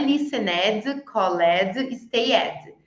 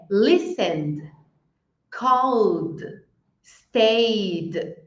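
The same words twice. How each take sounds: First: "listened, called, stayed" with an extra syllable, "listen-ED, call-ED, stay-ED"; wrong full -ed ending. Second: "listened, called, stayed" as "listend, calld, stayd", with no extra syllable; -ed as plain D. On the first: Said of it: "não é listened, called, stayed". ("listened, called, stayed" com o "ed" errado, como sílaba a mais) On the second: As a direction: slowly say each verb and just add a D: "listened, called, stayed". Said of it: "vou falar o verbo e vou falar um D". ("listened, called, stayed" só com som de D no final) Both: Shown as a demonstration.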